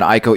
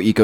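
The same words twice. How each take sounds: First: Ico said as "eye-co"; pronunciation contrast. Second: Eco said as "ee-co"; pronunciation contrast. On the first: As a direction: start Ico with an "eye" sound. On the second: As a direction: start Eco with a long "ee". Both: Shown as a demonstration. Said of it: "turning into an Ico Eco s".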